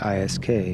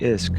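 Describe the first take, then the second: First: It is said as three separate letters. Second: It is said as a single word, isk. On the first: The speaker calls it right. "you say I S K" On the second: The speaker calls it wrong. "you don't say I S K"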